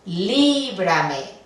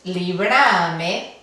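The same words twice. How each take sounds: First: The stress falls on the first syllable. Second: The stress falls on the second syllable. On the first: The speaker calls it right. "sino líbrame. Entonces requiere el uso de la tilde aquí" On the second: The speaker calls it wrong. "el acento fonético caería en la penúltima, líbrame. No es líbrame"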